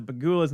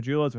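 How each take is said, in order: First: Pegulas said with a hard G as in "go"; hard-G version of the name. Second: Pejulas said with a J sound as in "jump"; soft-J version of the name. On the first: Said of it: "people say it on both ways". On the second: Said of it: "I'm gonna say Pejulas". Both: Shown as a demonstration.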